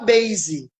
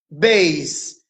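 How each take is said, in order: First: The word ends with an added vowel sound. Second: The word ends on the consonant with silent E. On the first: The speaker calls it wrong. "você não fala base" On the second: The speaker calls it right. "mas você fala base em inglês"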